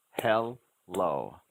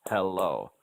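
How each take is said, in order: First: "Hello" as hel, pause, lo; separated syllables. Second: "hello" in one connected piece, falling; syllables rejoined. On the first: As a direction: leave a gap inside Hello. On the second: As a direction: join hel and lo smoothly in hello. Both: Shown as a demonstration. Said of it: "you have to hear the syllable sounds separately".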